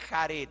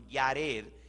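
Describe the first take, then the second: First: The name begins with a throaty H sound. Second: The name begins with a Y sound. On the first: The speaker calls it wrong. "no se dice Jared" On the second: The speaker calls it right. "Yared en hebreo"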